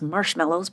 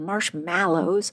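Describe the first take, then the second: First: The middle syllable sounds like 'mellow'. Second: The middle syllable sounds like 'mallow'. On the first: This is how the speaker habitually says it. The speaker calls it wrong. "which I always pronounce as" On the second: This is how the word really is. The speaker calls it right. "but they're"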